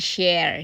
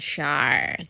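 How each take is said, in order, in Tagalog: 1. Ang tunog ng patinig ay katulad ng nasa 'air'. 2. Ang tunog ng patinig ay katulad ng nasa 'fire'. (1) "hindi share" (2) "Ang pronounce niyan Milshire"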